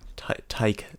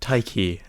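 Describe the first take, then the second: First: The name ends with an 'ah' sound. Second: The name ends with an 'ee' sound. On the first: The speaker calls it right. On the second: The speaker calls it wrong.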